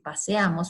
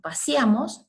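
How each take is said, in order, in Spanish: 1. La e después de la s es una e abierta completa. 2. La e después de la s se cierra hacia la i. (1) "en lugar de decir" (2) "la E que se cierra a un grado, como cuando nosotros decimos"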